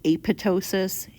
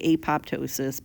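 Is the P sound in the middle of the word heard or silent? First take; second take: silent; heard. First: The P sound in the middle is silent. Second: The P sound in the middle is pronounced. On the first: "Sometimes people don't say this P" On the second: "I say apoptosis"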